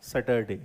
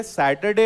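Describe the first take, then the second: First: सैटरडे with the r, "satarday", said low; सैटरडे with a sounded r; wrong way. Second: सैटरडे with silent r; सैटरडे said "setaday"; correct way. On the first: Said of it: "not सैटरडे". (सैटरडे गलत, र बोलकर) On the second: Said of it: "तो ये सैटरडे होता है". (सैटरडे सही, बिना र के) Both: Shown as a demonstration.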